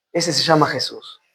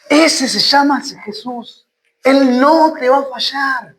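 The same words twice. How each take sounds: First: Low and soft, settling onto the name; quiet, low statement. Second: Slow, weighty proclamation; emphatic repeat. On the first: Preacher naming the one who will not fail, quiet and low. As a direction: say it softly, well down in pitch. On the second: Preacher assuring listeners He will not fail, slowly emphatic. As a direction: stretch each word out with conviction. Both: Real, not acted.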